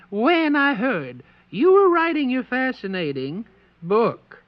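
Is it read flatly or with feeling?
with feeling. It is read with more feeling.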